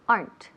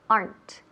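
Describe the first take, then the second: First: The word is said as one syllable. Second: The same.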